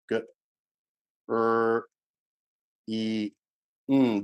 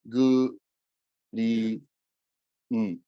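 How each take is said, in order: First: The word is split into sounds with an r. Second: The word is split into sounds with an l. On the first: The speaker calls it right. "what are the four sounds in the word green?" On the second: The speaker calls it wrong. "But what do our students hear?"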